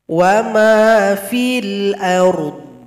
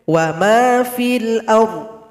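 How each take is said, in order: First: The final dh sound is full and flowing. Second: The final dh sound is weak and barely heard. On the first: The speaker calls it right. "Dhadnya sukun tetap diberikan sifatnya" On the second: The speaker calls it wrong. "Tidak boleh wa ma fil ard. Dhadnya tidak terasa"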